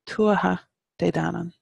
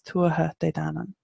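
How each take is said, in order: First: It is said slowly, broken into separate words. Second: It is said fluidly at a normal reading pace. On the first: "even when I'm trying to slow it down for emphasis" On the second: "if I'm just reading that out"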